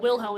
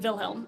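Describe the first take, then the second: First: The name begins with a W sound. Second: The name begins with a V sound. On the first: The speaker calls it wrong. "it's not Wilhelm" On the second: The speaker calls it right. "Even though it's a W, it's definitely a V"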